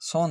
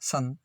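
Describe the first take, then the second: First: The vowel is a rounded 'o' sound. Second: The vowel is a short 'uh' sound. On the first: The speaker calls it wrong. "सोन नहीं है" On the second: The speaker calls it right. "ओ का उच्चारण ए"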